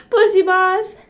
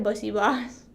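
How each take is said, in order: First: High, loud silly voice; exaggerated squeal. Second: Said in the usual way. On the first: Streamer playing with own phrase, high silly squeal. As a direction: squeal "Bussy boss" up high.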